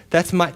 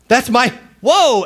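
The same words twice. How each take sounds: First: Said in the usual way. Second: Higher and louder, realizing "that's my"; mock amazed. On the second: Mary seeing her name in clouds, excited "that's my, whoa". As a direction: burst out with "whoa".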